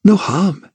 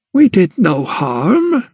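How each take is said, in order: First: Bitter echo. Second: Slow, higher gran; a lightly voiced old woman pleading; old grandmother. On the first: Acted. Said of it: "echoed Emily". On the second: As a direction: gran to Emily, slow and defensive. Grandmother defends herself.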